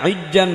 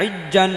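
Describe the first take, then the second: No difference in how they are said.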